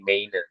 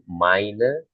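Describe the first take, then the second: First: The first vowel sounds like 'eh-ee'. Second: The first vowel sounds like 'ai'. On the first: The speaker calls it wrong. "sering salah mengejanya menjadi meine" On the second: The speaker calls it right. "Padahal ini harusnya kan meine Katze"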